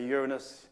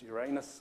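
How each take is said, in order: First: The ending does not sound like 'anus'. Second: The ending sounds like the word 'anus'. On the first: The speaker calls it wrong. "when Patrick Moore used to say Uranus, that was wrong" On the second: The speaker calls it right. "It was Uranus"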